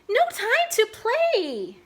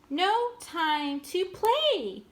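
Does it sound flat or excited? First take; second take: excited; flat. First: It is read with an excited tone. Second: It is read plainly, without excitement.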